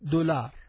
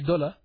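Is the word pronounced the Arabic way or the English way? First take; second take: Arabic; English. First: The word is pronounced the Arabic way. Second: The word is pronounced the English way. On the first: "in Arabic dollar" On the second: "In English we say dollar"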